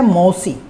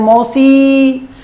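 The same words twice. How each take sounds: First: The final vowel is short and normal. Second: The final vowel is drawn out very long. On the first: The word is simply named. "इसका उच्चारण है मौसी" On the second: A close person is being called. "अंतिम ई की ध्वनि थी उसको लंबा बोल दिया"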